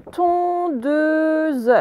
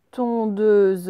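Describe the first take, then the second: First: Tondeuse drawn out high, falling slowly at the end; dictation word. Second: Said in the usual way. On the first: Shown as a demonstration. Teacher dictating tondeuse to the class, slow and clear. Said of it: "on écrit". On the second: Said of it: "même règle".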